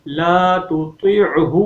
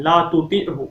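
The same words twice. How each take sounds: First: "لَا تُطِعْهُ" slowly chanted, light t then heavy t; distinct heavy taa. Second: "لَا تُطِعْهُ" quickly said with two thin t sounds; ta instead of taa. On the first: Teacher corrects the mistake, "لَا تُطِعْهُ" slow with heavy t. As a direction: draw out "لَا تُطِعْهُ", thickening the second t. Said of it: "طا کی جگہ پہ طا". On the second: Teacher shows the common mistake, "لَا تُطِعْهُ" with thin t. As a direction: flatten the second t of "لَا تُطِعْهُ" to a light t. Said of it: "طا کی جگہ پہ تا". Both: Shown as a demonstration.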